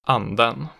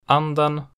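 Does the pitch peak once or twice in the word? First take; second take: twice; once. First: The pitch peaks twice, then rises again. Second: The pitch rises once on the stressed syllable. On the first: "accent 1 and accent 2" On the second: "accent 1 and accent 2"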